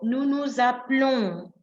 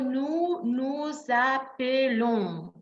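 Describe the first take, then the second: First: It is said fast. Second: It is said slowly.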